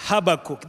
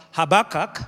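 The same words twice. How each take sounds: First: Habakkuk with last syllable "kook"; own pronunciation of Habakkuk. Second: Habakkuk with last syllable "kak"; other pronunciation of Habakkuk. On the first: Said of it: "I think mine is the better way". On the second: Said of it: "some people pronounce that name as Habakkuk". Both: Shown as a demonstration.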